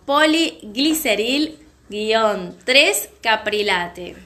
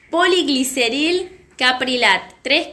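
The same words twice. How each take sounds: First: "poligliceril guion tres caprilate" read very slowly, syllable by syllable; "guion tres" placed before "caprilate", ending with a full "-late"; corrected ingredient name. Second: "poligliceril caprilat, tres" with the tres tacked on at the end; "caprilat" clipped, "tres" trailing after it; misread ingredient name. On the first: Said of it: "lo voy a decir de nuevo". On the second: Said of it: "perdón, lo voy a decir de nuevo". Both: Real, not acted.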